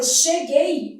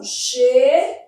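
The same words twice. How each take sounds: First: Said in the usual way. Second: "cheguei" split as a long, loud "che", then "guei"; teacher transcribing "che... guei" aloud; phonetic sounding-out. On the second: Shown as a demonstration. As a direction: stretch and separate the syllables of "cheguei". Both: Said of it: "Fazendo a transcrição".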